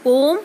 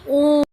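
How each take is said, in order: First: Said in the usual way. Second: ओम held long and loud, the vowel stretched to three beats; prolonged om. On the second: Shown as a demonstration. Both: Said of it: "प्लुत स्वर, जैसे कि".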